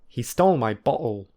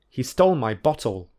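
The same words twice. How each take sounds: First: The t in bottle is a glottal stop. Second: The t in bottle is a clear t. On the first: "and secondly use the glottal plosive" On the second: "I will firstly use t"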